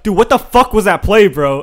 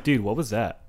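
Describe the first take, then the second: First: Loud, high-pitched mock outrage; toxic teammate. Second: Low, easygoing question to a teammate; non-toxic. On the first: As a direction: imitate a toxic gamer blasting a teammate. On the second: Retold or imitated. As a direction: ask it mildly, without any venom. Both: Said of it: "I don't say it toxic as fuck".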